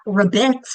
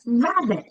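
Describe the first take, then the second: First: The stress is on the second syllable. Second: The stress is on the first syllable. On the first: The speaker calls it wrong. "not rabbit" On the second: The speaker calls it right. "It's rabbit"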